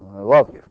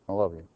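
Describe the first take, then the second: First: It is said warmly, with more feeling. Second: It is said flatly, without much feeling. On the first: The words are meant sincerely. The speaker calls it right. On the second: The words are said reluctantly, just to get it over with. The speaker calls it wrong.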